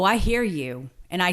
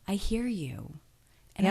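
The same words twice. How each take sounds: First: The tone sounds cold and mean. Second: The tone sounds warm and kind. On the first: The speaker disagrees in a hurtful way. The speaker calls it wrong. "that is Mean Regina" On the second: The speaker disagrees in a friendly, curious way. The speaker calls it right. "there's Kind Regina"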